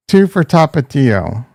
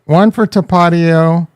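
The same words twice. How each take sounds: First: Tapatio as TAH-pah-TEE-oh; second pronunciation option. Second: Tapatio as tuh-PAH-dee-oh; first pronunciation option. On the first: Streamer repeating the poll, Tapatio as TAH-pah-TEE-oh. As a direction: give Tapatio a clear TEE. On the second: Streamer repeating the poll, Tapatio as tuh-PAH-dee-oh. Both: Shown as a demonstration. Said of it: "how do you say it".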